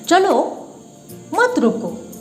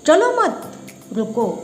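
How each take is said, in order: First: There is a pause after the first word. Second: There is a pause after the second word.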